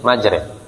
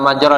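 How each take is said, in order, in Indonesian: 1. Vokalnya bergeser dari 'a' ke arah 'i'. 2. Vokalnya adalah bunyi 'a' terbuka yang biasa. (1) "Namanya qiraah imalah" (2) "antara antara majra dan majri"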